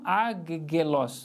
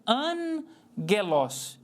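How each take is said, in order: First: The first gamma is said as a hard g. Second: The first gamma is said as a nasal n. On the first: The speaker calls it wrong. "não agelos, né? Duplamente o som de G" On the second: The speaker calls it right. "a leitura correta"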